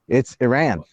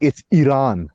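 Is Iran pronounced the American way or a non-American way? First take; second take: American; non-American. First: Iran is said with an American pronunciation. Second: Iran is said with a non-American pronunciation. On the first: This is how it is said in America. "I'm not British, okay? And I'm not Persian" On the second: This is how people who correct others say it. "But that ain't how we say it in America"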